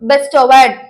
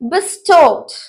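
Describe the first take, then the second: First: The word is said the common local way. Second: The word is said the standard English way. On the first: The speaker calls it wrong. "இதை நம்ம நிறைய பேர் எப்படி pronounce பண்ணுவோம்னா" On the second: The speaker calls it right. "So அந்த மாதிரிலாம் பண்ணாதீங்க"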